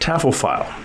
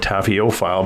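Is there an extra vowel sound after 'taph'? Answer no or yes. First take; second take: no; yes. First: It is said without an extra vowel after 'taph'. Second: It is said with an extra vowel after 'taph'. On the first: The speaker calls it right. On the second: The speaker calls it wrong.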